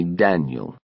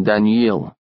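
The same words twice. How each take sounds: First: Daniel with a short unstressed vowel, DAN-yel. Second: Daniel with a long Russian ee sound, Dan-EEL. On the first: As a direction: say Daniel the English way, short and quick ending. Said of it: "call him Daniel, short vowel sound". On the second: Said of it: "instead of the long E sound as we would say it in Russian". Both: Shown as a demonstration.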